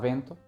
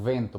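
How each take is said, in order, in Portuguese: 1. A palavra começa com som de B. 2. A palavra começa com som de V.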